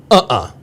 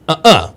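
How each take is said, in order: First: "uh-uh" with the first beat stressed, UH-uh; "uh-uh" weighted on the first sound; first-syllable stress. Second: "uh-uh" with the second beat stressed, uh-UH; "uh-uh" weighted on the last sound; second-syllable stress. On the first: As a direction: say "uh-uh" as a rhythm, UH-uh. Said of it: "putting the accent on the first syllable". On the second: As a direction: say "uh-uh" as a rhythm, uh-UH. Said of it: "it's always that second one". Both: Shown as a demonstration.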